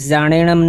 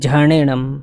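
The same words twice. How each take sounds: First: The word begins with a buzzing z sound. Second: The word begins with a breathy jh sound. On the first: The speaker calls it wrong. "આનો ઉચ્ચાર ઝાણેણમ નહીં કરવાનો" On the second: The speaker calls it right. "પણ ઝાણેણમ એવું છે"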